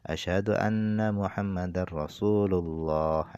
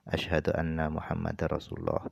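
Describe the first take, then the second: First: The phrase is said loudly. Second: The phrase is said quietly. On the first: "baru dikeraskan" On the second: "dengan lirih"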